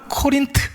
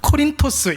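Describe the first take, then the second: First: It is said the English way, Ko-rin-t. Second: It is said the Greek way, Ko-rin-tos. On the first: "영어 발음으로는 코린트 이렇게 발음을 해요" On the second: "그리스 말로는 코린토스 이렇게 발음을 합니다"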